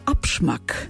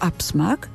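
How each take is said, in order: First: The consonant after 'ab' is a sh sound. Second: The consonant after 'ab' is a plain s sound. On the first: This is the old nineteenth-century pronunciation. "w XIX wieku wymawiany jako abschmack" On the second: This is the present-day pronunciation. "Dzisiaj wyraz ten, wymawiany jako absmak"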